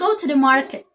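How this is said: The R in market is pronounced. "You pronounce the letter R"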